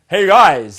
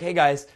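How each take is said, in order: First: It is said loudly with energetic, attention-grabbing force. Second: It is said softly in a seductive tone. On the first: "did you hear me going" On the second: "my vocal tone in it is mostly seductive ... It's soft"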